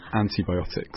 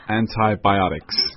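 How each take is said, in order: First: It is said with a British accent. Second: It is said with an American accent. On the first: "English is antibiotics" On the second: "American pronunciation, 美国话是 antibiotics"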